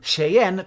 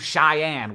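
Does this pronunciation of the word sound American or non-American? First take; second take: non-American; American. First: The word is said in a non-American way. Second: The word is said in an American way.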